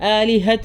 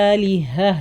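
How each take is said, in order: First: The word ends with a 't' sound. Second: The word ends with an 'h' sound. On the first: The speaker calls it wrong. "എന്ന് പറഞ്ഞിട്ടൊന്നും നിർത്താൻ പാടില്ല" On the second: The speaker calls it right. "നിർത്തുന്ന സമയത്ത് അത് ഹ തന്നെയാണ് വരേണ്ടത്"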